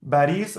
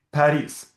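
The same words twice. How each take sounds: First: Paris with a B sound, "Baris"; B as written. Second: Paris with a clear P sound; B read as P. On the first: Teacher reading Arabic spelling to student, Paris with a B. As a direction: begin Paris with a voiced B. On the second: Teacher correcting the reading for student, Paris with a P. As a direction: begin Paris with an unvoiced P. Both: Shown as a demonstration. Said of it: "consider B being a P".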